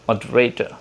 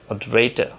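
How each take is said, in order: No difference in how they are said.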